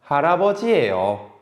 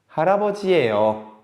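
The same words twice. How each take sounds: First: The voice falls at the end. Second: The voice falls at the end.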